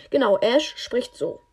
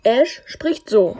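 First: Said in the usual way. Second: Loud slow character voice; slow, heavy, loud delivery; Ash voice. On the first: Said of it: "Nee, er spricht so, meinte ich". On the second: Shown as a demonstration. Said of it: "Ja, übelst cringe".

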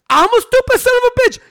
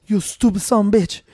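First: High, strained outraged imitation; Stone Cold Steve Austin mad. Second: Unruffled prankster manager. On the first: Imitating the wrestler answering the manager, high-pitched mock outrage. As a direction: mimic an incredulous angry wrestler, pitch shot way up. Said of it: "Stone Cold got so mad". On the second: Retold or imitated. Prankster needling an angry wrestler, unruffled insult. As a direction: insult delivered evenly, without raising the voice. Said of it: "pretending to be the manager".

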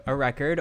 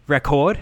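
First: Said in the usual way. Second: Record said re-CORD, louder, stress on the second syllable; re-CORD with a British lilt; British pronunciation. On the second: Shown as a demonstration. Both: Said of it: "or how they say in British".

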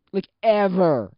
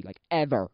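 First: EVER stretched out and loud; slow, louder "ever" in exasperation; exasperated emphasis. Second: Said in the usual way. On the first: Real, not acted. Exasperated repeat about being ghosted.

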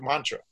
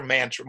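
First: MANTRA with an open "ah", as MAHN-tra; second pronunciation. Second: MANTRA with a flat "man" as in the word man; first pronunciation. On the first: Teller correcting himself on the motto, MANTRA said as "MAHN-truh". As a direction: say MANTRA with first vowel as in "father". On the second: Teller quoting the crew's motto, MANTRA said as "MAN-truh". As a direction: say MANTRA with first vowel as in "cat". Says word two ways. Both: Shown as a demonstration.

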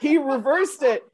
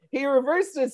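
First: "He" hit high and loud, slow, falling on "He"; stress on He. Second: "reversed" carries the peak with a fall; stress on reversed. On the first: Explaining the twist to his friend, stress on "He". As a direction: land on "He" so he flipped it. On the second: Repeating the twist to his friend, stress on "reversed". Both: Shown as a demonstration.

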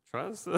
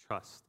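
First: Higher, soft questioning rise; mock-bewildered one-word query; puzzled echo. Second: Low, soft one-word reply; deadpan, quiet, withholding answer; cryptic friend's answer. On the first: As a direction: echo it back as a baffled question. Baffled echo of the friend's answer. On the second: Retold or imitated. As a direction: imitate a friend keeping it mysterious, voice dropped.

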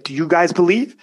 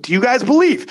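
First: Said in the usual way. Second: Hype call. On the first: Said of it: "I'll hype 'em up like that". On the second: Retold or imitated. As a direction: pump the crowd up on the repeat. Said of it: "So you hype 'em up".

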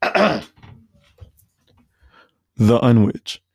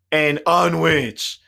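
First: Loud drawn-out mock customer; imitating the customer. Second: Slow, loud drawn-out mock customer; mock stubborn customer. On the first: Imitating a rude customer ordering, a loud blunt drawl. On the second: Imitating the customer repeating his order, slow and loud. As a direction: drag the word out stubbornly. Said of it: "and then he goes".

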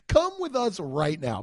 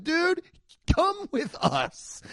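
First: Said in the usual way. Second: Higher, slow cop order; hint of a cop ordering him along; lightly voiced cop. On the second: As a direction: imitate a cop, a touch of mock stern. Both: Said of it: "They'd be like".

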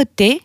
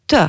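First: Said in the usual way. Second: T said as "teu", not "té"; t plus short eu; Albanian letter sound. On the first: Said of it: "ça se prononce". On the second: Shown as a demonstration. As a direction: say t as "tuh". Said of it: "ça se prononce t".

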